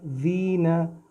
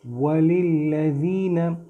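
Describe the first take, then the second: First: ज़ीना said with a buzzing z, the mistaken way; wrong z sound. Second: वलिल्लज़ीना with a soft dh, tongue between the teeth; soft dh sound. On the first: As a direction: say ज़ीना with a plain z, as a wrong example. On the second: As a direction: slowly say वलिल्लज़ीना with th as in this. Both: Shown as a demonstration. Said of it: "ज़ीना नहीं करना".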